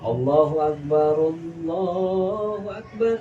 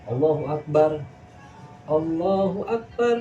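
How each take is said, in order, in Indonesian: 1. Kedua frasa menyambung tanpa jeda. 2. Jeda memisahkan kedua frasa. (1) "yang bagus tuh sinambungan" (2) "Ada orang azan"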